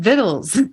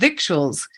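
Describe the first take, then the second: First: It is said as vittles, without a k sound. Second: It is said as spelled, with a k sound. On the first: The speaker calls it right. "we pronounce that word vittles" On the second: The speaker calls it wrong. "I've said victuals"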